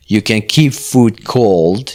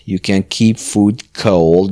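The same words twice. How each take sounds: First: Slow model reading. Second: Said in the usual way. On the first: Shown as a demonstration.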